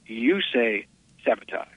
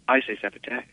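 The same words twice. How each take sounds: First: Low, soft, "sabotage" ending "-tahzh"; measured and quiet, open a at the end of "sabotage". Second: Low, soft, "sabotage" ending "-tadge"; measured and quiet, flat cat-like a closing "sabotage". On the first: Shatner answering the director, quietly says "sabotage" as "-tahzh". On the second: Shatner insisting to the director, quietly says "sabotage" as "-tadge". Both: Retold or imitated. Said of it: "as brilliantly as anything he's ever delivered".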